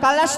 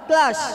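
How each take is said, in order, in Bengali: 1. অতিরিক্ত স্বরধ্বনি k আর l-কে আলাদা করে দেয়। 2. k আর l একটি শক্ত গুচ্ছ গঠন করে। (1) "কালাস নয়"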